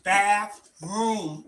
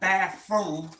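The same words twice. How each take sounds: First: The middle sound is a th sound. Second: The middle sound is an f sound. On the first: The speaker calls it right. "It's bathroom. R O O M" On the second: The speaker calls it wrong. "Not bathroom. I'm saying it with an F"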